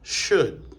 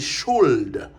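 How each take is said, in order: First: The L sound is silent in the word. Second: The L sound is pronounced in the word. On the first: The speaker calls it right. "elle n'est pas prononcée dans could, would and should" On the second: The speaker calls it wrong. "Nous pas dit should"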